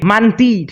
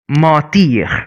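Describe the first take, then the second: First: The first vowel is oral, not nasal. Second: The first vowel is nasal. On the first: The speaker calls it wrong. "no more" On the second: The speaker calls it right. "you will have a nasal sound"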